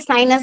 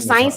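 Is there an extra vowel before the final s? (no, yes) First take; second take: yes; no. First: Said as three syllables, sa-i-nas. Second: Said as two syllables, sa-ins. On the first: "साइंस को साइनस बोलते हैं कश्मीर में" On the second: "साइंस ना बोल के"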